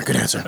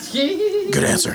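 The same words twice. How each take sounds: First: Dropped low and short. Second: High, slow and drawn out. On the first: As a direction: say it deep and quick. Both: Pretend. Mock-approving taco host.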